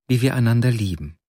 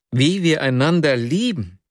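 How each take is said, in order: First: Said in the usual way. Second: Stunned outcry. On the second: A narrator's reading. Dreamer echoing Nastjenka's words back, crying out in disbelief. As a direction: echo her words back, higher and struck. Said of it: "rief ich aus".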